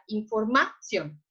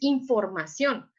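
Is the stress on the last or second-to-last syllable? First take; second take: second-to-last; last. First: The stress is on the second-to-last syllable. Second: The stress is on the last syllable. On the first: The speaker calls it wrong. "no colocamos el acento en la O, pero la colocamos en la A, entonces diría información" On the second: The speaker calls it right. "No, es información"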